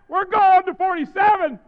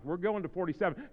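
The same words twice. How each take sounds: First: High, very loud preacher's shout; shouted announcement. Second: Said in the usual way. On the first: Real, not acted. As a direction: holler it to the back rows. Repeats it shouted to back rows.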